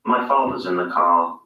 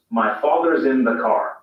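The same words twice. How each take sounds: First: Lower, non-rhotic British reading; British English demo sentence. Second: Rhotic American reading, every R sounded; American English demo sentence; General American. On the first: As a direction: say it in received pronunciation, no R in father's or car. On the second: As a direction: say it in General American with a clear R in father's and car. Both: Shown as a demonstration. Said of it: "Listen to the difference".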